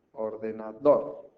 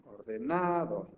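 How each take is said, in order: First: "ordenador" slow, with DOR punched at the end; stress on last syllable. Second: "ordenador" slow, with NA drawn out, then falling; stress on third syllable. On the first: Teacher finding the right stressed syllable, "ordenador" stressed on DOR. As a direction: land firmly on the final "dor" of "ordenador". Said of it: "la sílaba que más fuerte se pronuncia". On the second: Teacher testing for the stressed syllable, "ordenador" stressed on NA. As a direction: wrongly stretch the "na" of "ordenador". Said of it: "busco la sílaba tónica". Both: Shown as a demonstration.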